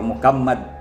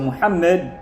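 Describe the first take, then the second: First: The middle consonant is a hard k sound. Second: The middle consonant is a breathy h sound. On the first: The speaker calls it wrong. "ang hindi pwede yung Mukammad" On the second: The speaker calls it right. "yun pa rin yun"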